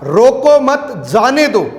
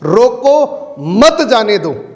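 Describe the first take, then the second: First: The pause comes after 'mat', meaning let him go. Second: The pause comes after 'roko', meaning stop him.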